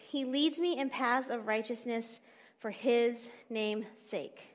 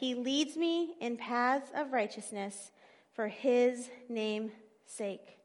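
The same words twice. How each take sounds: First: It is read at normal speed. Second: It is read slowly.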